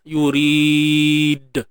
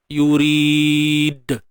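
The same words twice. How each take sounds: The two takes are said the same way.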